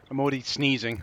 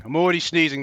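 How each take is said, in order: First: Said in the usual way. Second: "already" louder, more worked up; louder repeat. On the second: Real, not acted. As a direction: say it again with more outrage.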